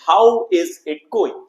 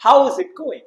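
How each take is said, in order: First: "How is it going?" said very slowly with each word apart; very slow, every word in "How is it going?" pronounced separately; full careful form. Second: "How is it going?" run together quick and high; natural quick contracted "How is it going?", pitched higher; short standard form. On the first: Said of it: "आप इसको ऐसे भी pronounce कर सकते हैं". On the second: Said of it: "standard English में हम short में इसको कैसे बोलते हैं?". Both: Shown as a demonstration.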